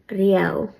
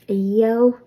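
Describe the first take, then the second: First: It starts directly with an R sound. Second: It starts with a vowel and a y-like sound. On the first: "leave the uh part off and just say Riao. In that case, you won't pronounce the R like a Y" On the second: "That's the way I've heard people in Donegal in Ulster say the word for ever"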